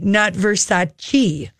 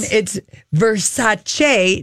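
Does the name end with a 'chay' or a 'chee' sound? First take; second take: chee; chay. First: The name ends with a 'chee' sound. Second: The name ends with a 'chay' sound. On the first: The speaker calls it wrong. "We've been saying it wrong for years" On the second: The speaker calls it right. "It's Versace, not chi"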